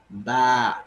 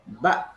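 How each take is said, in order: First: The vowel is drawn out long. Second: The vowel is clipped short. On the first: The speaker calls it wrong. "Il ne faut surtout pas les allonger. Il ne faut pas dire ba" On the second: The speaker calls it right. "il faut plutôt dire ba de façon brève et courte"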